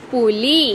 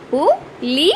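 First: Said in the usual way. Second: പു, ലി spoken as separate beats with pauses; split into syllables. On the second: Shown as a demonstration. Teacher to pupils, sounding out പു, ലി one syllable at a time. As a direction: tap out പു then ലി. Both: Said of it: "ല എന്ന അക്ഷരത്തിന്".

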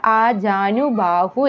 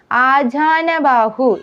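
First: ആജാനുബാഹു with "nu" before baahu; correct form. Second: ആജാനബാഹു with "na" before baahu; wrong form. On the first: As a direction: give ആജാനുബാഹു as the careful correction. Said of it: "ആജാനുബാഹു എന്നാണ്". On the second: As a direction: hold up ആജാനബാഹു as the mistake. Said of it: "എന്നല്ല". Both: Shown as a demonstration.

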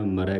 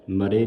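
First: ਮਰੈ ending in an open ai like ɛ; correct dulavan vowel. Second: ਮਰੇ with a plain final e, the wrong way; wrong reading. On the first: Teacher giving the sangat the right ਮਰੈ, open ai. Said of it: "ਮਰੈ ਕਹਿਣਾ". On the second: Teacher showing the sangat the wrong ਮਰੇ, final e. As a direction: say ਮਰੇ ending in a short e. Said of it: "ਮਰੇ ਨਹੀਂ ਕਹਿਣਾ". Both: Shown as a demonstration.

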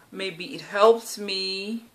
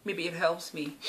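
First: Drawn out slowly, wondering aloud; slow hopeful musing. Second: Softer, said to herself; quiet echo. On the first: Talking to camera about training, slow hopeful musing. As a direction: let it hang, slowly hoping. Hopeful thought, then echoed. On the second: Echoing her own hope about the gym, softly to herself. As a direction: drop it under the breath, repeating. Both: Real, not acted.

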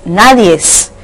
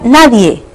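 First: "nadies" with an added final s; forma incorrecta. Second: Said in the usual way. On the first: Shown as a demonstration. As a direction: say "nadies" slowly, sounding the extra s. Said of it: "no es nadies". ("nadies" con una s final añadida) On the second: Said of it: "nadie se escribe así".

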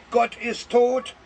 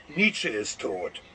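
First: A half-hearted, slow, higher cry of Gott ist tot; mock outcry. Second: Much lower, slow, booming voice of the Almighty; voice of God. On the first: Listener tempted to scream out loud, mild mock cry. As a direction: pretend to yell it out in protest. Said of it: "laut herausschreien". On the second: Acted. The Almighty has the last word, slow deep godly verdict. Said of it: "Er sagt".

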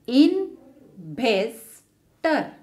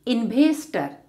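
First: Investor slowly as in-ves-tor; three spaced beats for Investor; syllable by syllable. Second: Said in the usual way. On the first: Shown as a demonstration. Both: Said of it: "separate a word into syllables".

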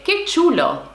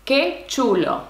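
First: Lively and higher, a delighted cry; excited exclamation. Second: Said slowly for learners; slow model. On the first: Teacher showing how a delighted learner exclaims it. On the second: Teacher repeating slowly so students can follow. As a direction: spell it out slowly for the class. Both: Shown as a demonstration.

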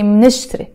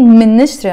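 First: منشتري quick, as two syllables "mnish-tri"; very fast onset. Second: منشتري loud, with a vowel put in, "mi-nishtri"; exaggerated pronunciation. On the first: Teacher showing consonant with consonant, very fast onset. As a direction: run m and n together in منشتري, no vowel. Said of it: "you have to be very fast". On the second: Teacher showing the word, exaggerated and loud. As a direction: overdo the first syllable of منشتري. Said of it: "I'm exaggerating". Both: Shown as a demonstration.

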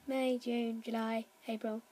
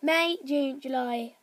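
First: Said in the usual way. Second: "May, June, July" restarted deliberately, each month given weight; careful correction. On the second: Shown as a demonstration.

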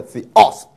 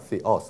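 First: Theos with "os" punched loud; wrong stress on last syllable. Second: Said in the usual way. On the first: Shown as a demonstration. Teacher shows what not to do, theos stressed on "os". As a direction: hit the end of theos hard. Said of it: "没有theos". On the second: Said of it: "两个发音都一样".

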